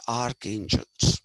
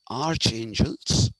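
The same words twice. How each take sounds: First: "archangels" said as ark-angels; k sound in archangels. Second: "archangels" said slowly as arch-angels; ch sound in archangels. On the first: Teacher showing what they are called, "archangels" with k. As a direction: say "archangels" with a hard K. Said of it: "they are called archangels". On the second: Teacher showing what it should be, "archangels" with ch. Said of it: "actually it should be". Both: Shown as a demonstration.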